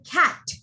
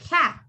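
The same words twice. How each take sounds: First: The final T is released strongly. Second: The final T is cut off abruptly. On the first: The speaker calls it wrong. "you don't say" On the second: The speaker calls it right. "You just say"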